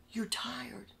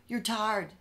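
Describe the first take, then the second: First: Breathy mock-sympathetic whisper. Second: Said in the usual way. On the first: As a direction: whisper it like fake pity. Bosses feign concern for him.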